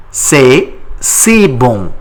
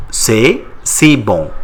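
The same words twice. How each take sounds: First: C'est si bon, slow with stress on si; slow model. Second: Slow repeat. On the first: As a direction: spell it out slowly. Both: Shown as a demonstration. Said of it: "How do you say it in French?".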